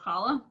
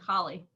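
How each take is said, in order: First: The word ends with an 'ah' sound. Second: The word ends with an 'ee' sound. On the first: "Instead of challah" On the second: "So more like holly"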